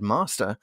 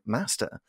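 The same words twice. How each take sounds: First: It is said in a southern English accent. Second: It is said in a northern English accent. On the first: "I did not. I said master" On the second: "I should have grown up saying master"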